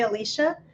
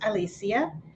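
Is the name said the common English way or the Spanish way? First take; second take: English; Spanish. First: The name is said the common English way. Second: The name is said the Spanish way. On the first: The speaker calls it wrong. "most people would say Alicia" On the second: The speaker calls it right. "it's actually pronounced Alicia"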